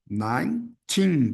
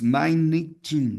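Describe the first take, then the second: First: The word is said with two syllables. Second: The word is said with three syllables. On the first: The speaker calls it right. "duas sílabas" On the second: The speaker calls it wrong. "dando três sílabas. Nineteen, não"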